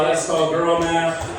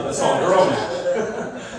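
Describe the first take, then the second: First: Said in the usual way. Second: Slow punchline. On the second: Shown as a demonstration. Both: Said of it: "punchline said twice".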